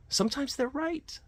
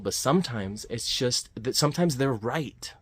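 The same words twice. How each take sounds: First: Much higher, squeaky mock voice; squeaky high repeat. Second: Said in the usual way. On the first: Shown as a demonstration. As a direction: squeak out "Sometimes they're right" as a silly echo.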